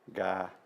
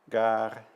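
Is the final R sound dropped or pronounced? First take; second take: dropped; pronounced. First: The final R sound is dropped. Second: The final R sound is pronounced. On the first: This is the borrowed Vietnamese form. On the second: This is the original French form.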